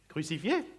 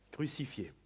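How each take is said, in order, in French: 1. Le ton monte à la fin. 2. Le ton reste égal à la fin.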